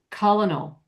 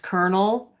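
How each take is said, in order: First: An L sound follows the first vowel. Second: An R sound follows the first vowel. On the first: "where they actually do pronounce the L" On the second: "In America, it's colonel"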